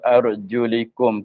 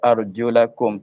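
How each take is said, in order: First: The vowel after the L is 'i'. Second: The vowel after the L is 'a'. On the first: "dengan baris kasrah, baris di bawah" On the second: "dengan fathahkan dengan baris atas"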